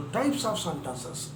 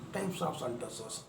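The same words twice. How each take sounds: First: Slow, deliberate announcement of types of sentences; teacher introducing a key term slowly; emphasised topic. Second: Quieter, slow repeat of Types of sentences; teacher repeating the term gently for students; soft echo. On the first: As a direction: announce the new topic with weight. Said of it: "teacher stresses key topic". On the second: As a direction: echo the phrase softly to let it sink in. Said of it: "teacher repeats topic softly". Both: Shown as a demonstration.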